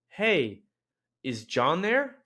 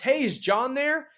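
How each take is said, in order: First: It is spoken a little more slowly. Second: It is spoken at a normal, quicker pace.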